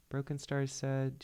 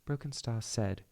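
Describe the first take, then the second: First: Said in the usual way. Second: Put-on amateur British accent. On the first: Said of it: "should start doing her British accent now". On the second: Clan leader answering an accusation, British accent. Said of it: "I should start doing her British accent now".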